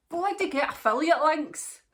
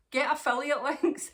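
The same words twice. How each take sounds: First: Much higher and louder, punching bloody; half-joking rallying cry; emphatic urging. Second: Repeated through laughter, higher; giggling as you say it again; laughing repeat. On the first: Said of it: "urging other vloggers". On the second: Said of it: "repeats it laughing". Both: Real, not acted.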